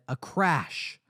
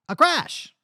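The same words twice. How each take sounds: First: It is said in his normal voice. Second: It is said in an old-timey Western voice.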